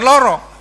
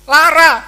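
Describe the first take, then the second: First: The vowels are rounded 'o' sounds. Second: The vowels are open 'a' sounds. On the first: This is the later, non-original form. "bukan loro" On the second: This is the original Javanese form. "bahasa Jawa yang asli itu yang A"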